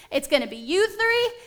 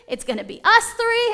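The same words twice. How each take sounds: First: Said in the usual way. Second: Us lifted high and loud; "us" hit hard and high; stress on us. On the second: Shown as a demonstration. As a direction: punch the word us, much higher.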